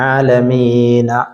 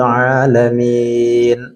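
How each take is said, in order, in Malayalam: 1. വാക്കിന്റെ അവസാനം ഒരു സ്വരം ചേർത്തിരിക്കുന്നു. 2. വാക്ക് അടഞ്ഞ 'ന' ശബ്ദത്തിൽ അവസാനിക്കുന്നു.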